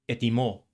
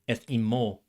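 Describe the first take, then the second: Both takes have the same delivery.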